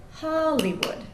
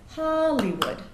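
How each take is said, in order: First: HOLlywood with HOL high and loud; strong stress on HOL. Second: HOLlywood with the first syllable louder; stress on HOL. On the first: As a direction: hit HOL hard in Hollywood. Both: Shown as a demonstration. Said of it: "The stress is on the first syllable".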